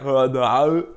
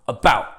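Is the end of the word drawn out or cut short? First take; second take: drawn out; cut short. First: The ending is drawn out and lingers. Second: The ending is cut off abruptly.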